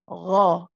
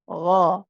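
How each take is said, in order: No difference in how they are said.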